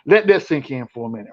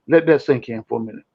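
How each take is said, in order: First: It is said in a put-on imitated voice. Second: It is said in his own normal voice.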